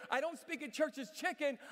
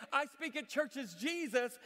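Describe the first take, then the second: First: "chicken" stressed, falling. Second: "Jesus" slow and firm, louder; stress on Jesus. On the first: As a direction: lean on "chicken" as the error. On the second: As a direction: slowly land "Jesus" as the correction. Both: Retold or imitated. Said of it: "I have to tell this woman".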